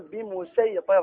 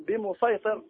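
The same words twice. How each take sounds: First: "بمسيطر" with a plain s for the saad; pronounced with seen. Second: "بمسيطر" with heavy emphatic saad, slowly; pronounced with saad. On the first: Teacher quoting Friday preachers' mistake, "بمسيطر" with seen. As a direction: say "بمسيطر" with a thin seen sound. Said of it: "بالسين". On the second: Teacher showing the correct reading, "بمسيطر" with saad. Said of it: "ليس لنا وجه إلا بالصاد". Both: Shown as a demonstration.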